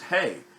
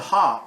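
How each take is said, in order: First: The name ends in an 'ay' vowel. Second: The name ends in an open 'ah' vowel. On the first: This is the modern pronunciation of the letter. "which modern Hebrew says hey" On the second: This is the older pronunciation of the letter. "it's that letter pronounced as ha"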